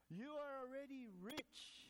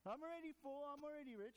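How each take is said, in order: First: Slow, higher mock-impressed sneer; sarcastic Paul. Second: Smug mockery. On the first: Paul sarcastically tells the rich Corinthians, slow and higher. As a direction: draw it out with a raised sarcastic lilt. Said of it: "Paul goes on a little sarcastically". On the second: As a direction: puff up and crow it. Mocking smug churchgoers.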